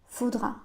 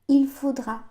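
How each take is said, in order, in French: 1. Le pronom il est omis devant faudra. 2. Le pronom il se prononce devant faudra. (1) "les Français disent souvent faudra" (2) "au lieu de dire il faudra"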